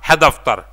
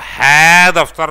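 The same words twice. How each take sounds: First: The first word's vowel is clipped short. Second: The first word has a full, long vowel. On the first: The speaker calls it right. "ये जो है दबा गए" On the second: The speaker calls it wrong. "अब है दफ्तर नहीं पढ़ा गया"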